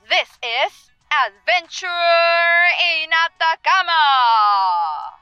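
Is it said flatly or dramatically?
dramatically. It is said very dramatically.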